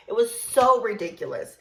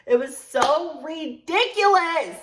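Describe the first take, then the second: First: "so" leaned on, at everyday pitch; stress on so. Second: "ridiculous" drawn out, high and loud; exasperated stress on ridiculous. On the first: Storyteller sums up coworker's behavior, stressing "so". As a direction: lean on "so", keeping the rest contained. Exasperated verdict, first take. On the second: Storyteller exasperated by coworker, drawing out "ridiculous". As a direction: stretch "so ridiculous", peaking loudly on "ridiculous". Exasperated verdict, escalated repeat. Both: Real, not acted.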